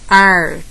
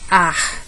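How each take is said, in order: First: It is said in a São Paulo interior accent. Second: It is said in a Northeastern Brazilian accent. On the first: "No interior paulista" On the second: "No Nordeste"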